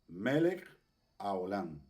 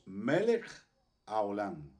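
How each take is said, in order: The two takes are said the same way.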